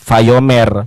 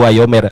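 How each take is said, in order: First: The word starts with a v sound. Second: The word starts with a w sound. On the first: This is the usual reading. "Ini tuh bacaannya Vayomer" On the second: This is the classical reading. "kalau klasik itu Wayomer"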